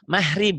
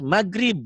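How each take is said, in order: First: The middle consonant sounds like a soft h. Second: The middle consonant is a hard g stop. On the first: This is how Javanese speakers say it. "Kalau di Jawa G-nya jadi hain" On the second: This is how Sundanese speakers say it. "Kalau di Sunda kekerasan terus maghrib. G-nya jadi G"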